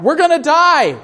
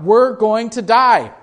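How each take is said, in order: First: Higher and louder, a panicked pilot screaming; mock scream of panic. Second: Mild mock cry. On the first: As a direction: scream it like the plane is going down. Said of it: "the pilot is screaming out". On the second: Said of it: "were crying out".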